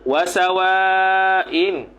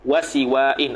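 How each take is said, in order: First: The vowel after the s is a. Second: The vowel after the s is i. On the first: The speaker calls it right. "difathahkan sin, sa, itu afsahu" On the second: The speaker calls it wrong. "ada bahasa yang kata gitu tapi tidak fasih"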